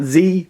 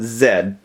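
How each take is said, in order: First: The letter is said the non-Canadian way. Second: The letter is said the Canadian way. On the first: The speaker calls it wrong. "Not Z" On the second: The speaker calls it right. "in Canada it's pronounced Z"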